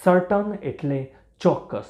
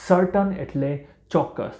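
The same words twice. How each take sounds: The two takes are said the same way.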